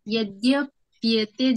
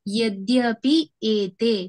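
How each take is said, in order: First: The two words are run together as one. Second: The two words are said separately, unjoined. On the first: "उच्चारण में थोड़ा सा difficult होगा" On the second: "अगर वैसे पढ़ेंगे तो आप उसको उच्चारण कर पाएंगे"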